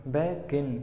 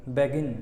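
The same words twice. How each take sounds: First: "begin" as BE, short pause, GIN; a small stop inside "begin", after BE; syllable break. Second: Said in the usual way. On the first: Shown as a demonstration. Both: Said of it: "आपकी ज़बान बीच में एक बार रुकेगी".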